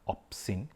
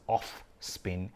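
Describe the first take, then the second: First: It is said as one word, 'opsin'. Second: It is said like the two words 'off spin'. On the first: The speaker calls it right. "but it opsin" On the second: The speaker calls it wrong. "I would probably mispronounce it as off spin"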